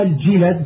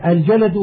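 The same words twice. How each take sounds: First: الجلد with i after jim, a after lam; vowelled jilad. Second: الجلد with short a after both jim and lam; vowelled jalad. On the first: Teacher explaining a plural form says الجلد as "al-jilad". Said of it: "بكسر الجيم مع فتح اللام". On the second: Teacher reading a glossary gives الجلد as "al-jalad". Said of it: "بفتح الجيم مع فتح اللام". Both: Shown as a demonstration.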